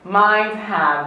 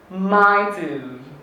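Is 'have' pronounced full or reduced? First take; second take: full; reduced. First: Have is said in full with its h. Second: Have is shortened to a weak schwa sound.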